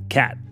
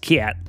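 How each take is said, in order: First: The vowel is a plain, open short a. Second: The vowel is raised and gliding, like ee-a. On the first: The speaker calls it right. "It's pronounced cat" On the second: The speaker calls it wrong. "is not pronounced cat"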